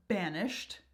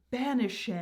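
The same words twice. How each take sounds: First: Said in the usual way. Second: "banished" in three syllables, ban-ish-ED; "banished" stretched to BAN-ish-ED; expanded syllables. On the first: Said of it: "creating more syllables within the word". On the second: Shown as a demonstration. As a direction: sound the ending of "banished" as a full "-ed". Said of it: "making words or phrases longer".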